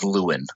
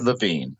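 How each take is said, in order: First: The name is said the American way. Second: The name is said the German way. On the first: This is how the family said it in the United States. "when he came to the United States... it was always Lewin" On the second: This is how it would be said in Germany. "if you were in Germany, you might have said Levine"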